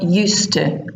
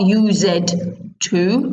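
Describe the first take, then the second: First: The two words run together as one. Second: The two words are said separately. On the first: The speaker calls it right. "it's one word" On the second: The speaker calls it wrong. "it's not used to"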